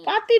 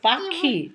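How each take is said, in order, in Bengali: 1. মাঝের ব্যঞ্জনটি একটি সাধারণ t ধ্বনি। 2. মাঝের ব্যঞ্জনটি একটি মহাপ্রাণ kh ধ্বনি। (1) "পাতি নয়" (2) "নয় পাখি"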